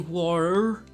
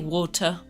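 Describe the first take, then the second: First: The T in the middle is softened. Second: The T in the middle is clearly pronounced. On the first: "I don't say water like the Americans" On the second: "I say water. ... I pronounce the T"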